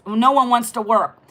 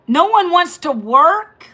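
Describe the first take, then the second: First: Said in the usual way. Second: "No one wants to work" slow and higher, rising on "work"; incredulous question. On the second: Real, not acted. Host throws a viewer's comment back, incredulous, "work" rising.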